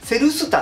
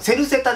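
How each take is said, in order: First: The second syllable is pronounced 'su'. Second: The second syllable is pronounced 'se'. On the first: The speaker calls it wrong. "セルスタって言っちゃいそうになるん" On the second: The speaker calls it right. "セルセタですからね"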